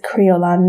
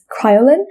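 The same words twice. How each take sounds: First: The name is said in a non-Americanized way. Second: The name is said in an Americanized way. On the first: The speaker calls it right. "the correct way of pronouncing it" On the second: The speaker calls it wrong. "a very like Americanized way of saying the name"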